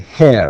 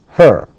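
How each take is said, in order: First: The vowel sounds like the one in 'air'. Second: The vowel sounds like the one in 'fur'. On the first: The speaker calls it wrong. "some people say hair, and it's not hair" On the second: The speaker calls it right. "it's actually her. This is the correct way"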